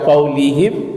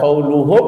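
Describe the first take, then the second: First: The vowel after the l is i. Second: The vowel after the l is u. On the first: "tidak boleh dibaca qaulihim" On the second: "tidak boleh baca qauluhum"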